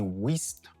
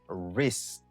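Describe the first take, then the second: First: A W sound is pronounced at the start. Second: No W sound is pronounced at the start. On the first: The speaker calls it wrong. "Ou pas dit wrist" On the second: The speaker calls it right. "ou dit wrist"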